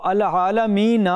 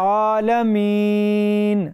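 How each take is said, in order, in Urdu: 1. لفظ نون کے بعد چھوٹے 'a' پر ختم ہوتا ہے۔ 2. لفظ سادہ نون کی آواز پر ختم ہوتا ہے۔ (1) "جب ہم مسلسل پڑھ رہے ہوں تو العالمین ہی پڑھیں گے" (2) "اس کو آپ ختم کر دیں تو پڑھا جائے گا عالمین، نون ساکن ہو گیا"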